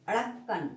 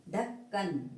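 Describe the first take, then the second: First: अड़क्कन with a flapped ड़, the wrong form; अड़क्कन said with a dotted letter by mistake; wrong pronunciation. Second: ढक्कन with a plain aspirated ढ at the start; ढक्कन said cleanly, no flap; correct pronunciation. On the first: (अड़क्कन का गलत उच्चारण, बिंदी वाले अक्षर के साथ) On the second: (ढक्कन का सही उच्चारण, बिना बिंदी वाला ढ) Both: Shown as a demonstration. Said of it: "अड़क्कन नहीं है".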